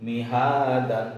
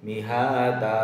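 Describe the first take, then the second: First: Slow chant of মিহাদান with final "an"; full form. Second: মিহাদা ends on a long "a", no final n; pausal form. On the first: Teacher reciting the word before the pausal form. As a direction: keep the nunation in মিহাদান. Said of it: "যেমন হচ্ছে". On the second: Teacher showing the stop on double fatha. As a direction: drop the n and hold the a in মিহাদা. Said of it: "আমরা এখানে পড়ব". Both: Shown as a demonstration.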